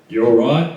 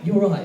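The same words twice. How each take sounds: First: It is said in a guttural Australian accent. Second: It is said in a London accent.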